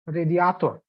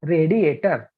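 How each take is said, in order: First: Radiator as reh-dee-AH-tor; "radiator" with open a and final -or; Russian pronunciation. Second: Radiator as ray-dee-AY-ter; "Radiator" with long a and Indian r; Indian pronunciation. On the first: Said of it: "from Russia or". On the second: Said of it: "we would, you know, normally pronounce it". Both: Shown as a demonstration.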